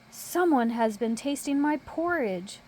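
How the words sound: It is said in a big, deep voice. "in a great big voice"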